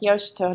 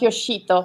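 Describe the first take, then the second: First: It is said with a Japanese pronunciation. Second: It is said the Italian way, stressing the i. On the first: The speaker calls it right. "I wanted to say his name in a Japanese way" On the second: The speaker calls it wrong. "sarebbe italiano, ecco, sarei uscito con l'accento sulla I"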